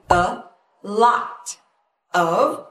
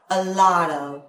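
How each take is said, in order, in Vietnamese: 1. Các từ tách rời nhau, t rõ. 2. Các từ nối liền nhau, t mềm kiểu flap. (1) "mình có chữ a lot of" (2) "mình nối thành là a lot of"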